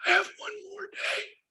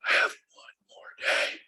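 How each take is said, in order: First: Thin, strained voice of a sick dad; imitating dad's faint voice; strained weak voice. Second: Slow, breathless whisper; imitating dad's whisper; whispered repeat. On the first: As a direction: push the words out with the last strength. Dying dad on the phone. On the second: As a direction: let the words fade to a dying whisper. Dying dad repeating himself.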